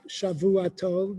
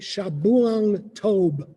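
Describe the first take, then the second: First: The first word is said with a v sound. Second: The first word is said with a b sound. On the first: The speaker calls it wrong. "You say not Shavua Tov" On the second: The speaker calls it right. "you say Shabuang Tov. That's what you have to say"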